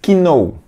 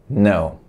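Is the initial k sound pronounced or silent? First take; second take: pronounced; silent. First: The word begins with an audible k sound. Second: The word begins directly with an n sound. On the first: The speaker calls it wrong. "a pronúncia não é know, você não vai falar essa letra K" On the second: The speaker calls it right. "A pronúncia correta é no"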